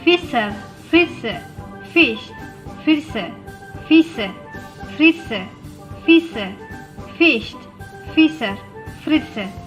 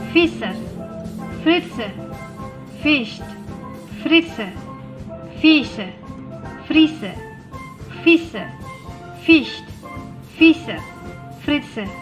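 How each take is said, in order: First: It is said at a fast pace. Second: It is said at a somewhat quicker pace. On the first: "Lebih cepat lagi" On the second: "Lebih cepat sedikit"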